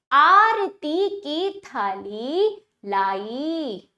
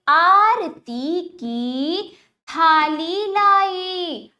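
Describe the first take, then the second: First: आरती की थाली लाई drawn out, more relaxed; measured word-by-word आरती की थाली लाई; slow repeat reading. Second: आरती की थाली लाई very slow and projected; emphatic word-by-word first reading of आरती की थाली लाई; slow demonstration reading. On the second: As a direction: stretch every long vowel in आरती की थाली लाई. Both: Shown as a demonstration. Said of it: "अब वाक्यों का उच्चारण करते हैं".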